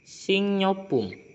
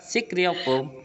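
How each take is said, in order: First: An ng sound replaces the k and r sounds. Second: A k sound is followed by an r sound. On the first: The speaker calls it right. "tapi lebih enak dibacanya singyopum" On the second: The speaker calls it wrong. "Emang tulisannya sikriopum"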